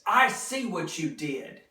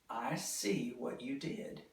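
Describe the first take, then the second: First: It is said with strong feeling. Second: It is said plainly, without strong feeling. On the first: The speaker feels strongly about what was done. "I'm using strong feeling" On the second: It is a plain statement. "That's just a statement"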